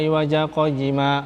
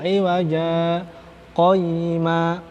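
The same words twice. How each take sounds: First: The two words run together without a pause. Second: A brief pause separates the two words. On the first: The speaker calls it wrong. "Jangan langsung" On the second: The speaker calls it right. "di situ ada sakta"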